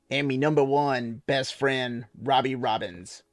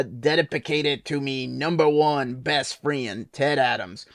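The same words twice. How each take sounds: First: Slow, lightly voiced sailor man with less twang; toned-down Popeye. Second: Slow sailor-man drawl with a heavy country twang; Popeye voice. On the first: Reading the dedication again as Popeye, twang toned back. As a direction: ease off the twang, still Popeye. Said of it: "Tone it back some". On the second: Retold or imitated. Reading the book dedication aloud as Popeye, overly twangy. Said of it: "That was a little country twang there".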